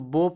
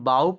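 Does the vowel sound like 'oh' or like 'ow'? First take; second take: oh; ow. First: The vowel is a long 'oh' sound. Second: The vowel is an 'ow' sound. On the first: It means a weapon for shooting arrows. "बो पढ़ेंगे तो इसका मतलब निकलेगा धनुष" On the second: It means to bend forward. "बाऊ पढ़ेंगे तो इसका मतलब निकलेगा झुकना"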